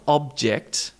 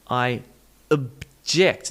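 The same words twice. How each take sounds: First: OB-ject with a full O; first-syllable stress. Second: Uh-JECT, split off and punched on JECT; schwa, second-syllable stress. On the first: Teacher shows what to avoid, OB-ject. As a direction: say "object" the noun's way, OB strong. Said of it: "not object". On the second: Teacher shows the schwa, stressed uh-JECT. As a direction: reduce "object" to uh, then hit JECT. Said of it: "with this schwa sound". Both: Shown as a demonstration.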